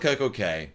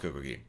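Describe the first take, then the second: First: The last word is said like 'kay'. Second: The last word is said like 'key'. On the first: "I always call the Coco K" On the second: "So, I call it Coco Key"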